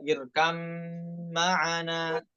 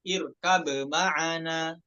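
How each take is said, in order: First: The b merges fully into the following m. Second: The b is pronounced clearly before the m. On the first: This is how the Hafs reading has it. "Hafiz dibaca dengan idgham" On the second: This is how some other reciters read it. "dibacanya izhar itu"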